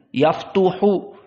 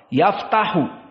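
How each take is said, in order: First: The middle vowel after the t is u. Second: The middle vowel after the t is a. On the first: The speaker calls it wrong. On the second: The speaker calls it right.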